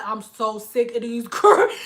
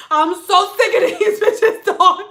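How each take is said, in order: First: Said in the usual way. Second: High, loud comic venting; exasperated outburst. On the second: Retold or imitated. Stylist venting to husband outside, exasperated outburst. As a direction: blow up with a laugh in it. Vent to husband, boiling over.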